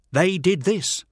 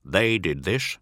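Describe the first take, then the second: First: Higher, louder nervous echo; Teth agreeing. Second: Said in the usual way. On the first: Acted. Teth nervously confirming to his master. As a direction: echo it back, anxious. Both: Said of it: "agrees Teth".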